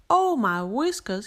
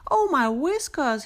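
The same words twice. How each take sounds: First: Pleased surprised gasp; delighted at a lovely find; mild delighted gasp. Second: Higher, horrified gasp; alarmed little rabbit gasp; gasped in horror. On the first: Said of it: "he gasped". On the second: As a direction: recoil in horror at the crack. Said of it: "he gasped in horror". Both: A narrator's reading.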